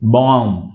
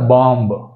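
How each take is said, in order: First: The word ends in m with no b. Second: The word ends with an audible b. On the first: The speaker calls it right. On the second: The speaker calls it wrong.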